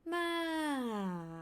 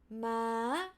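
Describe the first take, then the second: First: The pitch falls from high to low. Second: The pitch holds mid, then jumps up high. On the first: "falling from up to down" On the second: "mid to high"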